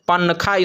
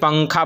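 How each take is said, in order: First: The n is fully pronounced with the tongue. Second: The n is hidden as a nasal sound. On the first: The speaker calls it wrong. "पनखा इसको नहीं बोलते हैं" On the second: The speaker calls it right. "बल्कि पंखा बोलते हैं"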